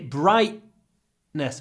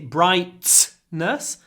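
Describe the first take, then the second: First: The t is replaced by a glottal stop. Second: The t is fully released before the n. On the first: The speaker calls it right. "we say brightness, bright, bright, and we stop the sound in our throat" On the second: The speaker calls it wrong. "we don't say brightness"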